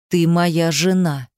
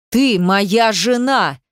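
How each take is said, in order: First: Slow, tightly controlled claim; slow, contained menace; seething restraint. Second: Slow, forceful narrated yell; slow, emphatic possessive shout; furious yell. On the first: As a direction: hold the anger in, slowly. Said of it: "процедил он". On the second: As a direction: drive each word out in anger. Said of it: "заорал, плюясь слюной". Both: A narrator's reading.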